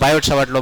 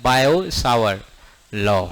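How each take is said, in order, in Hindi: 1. 'Biot' में आख़िरी t बोला जाता है। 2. 'Biot' में आख़िरी t साइलेंट है। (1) "प्रॉपर इंग्लिश तो हम लोग बोलते नहीं है, तो हम लोग पढ़ते हैं बायोट Savart law" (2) "बायोट Savart नहीं होता, क्या होता है"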